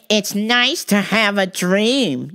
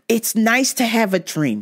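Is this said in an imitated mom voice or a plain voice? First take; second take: mom voice; plain. First: It is said in a put-on mother's voice. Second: It is said in a plain, ordinary voice. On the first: The speaker calls it right. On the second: The speaker calls it wrong.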